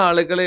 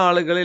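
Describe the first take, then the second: The two takes are said the same way.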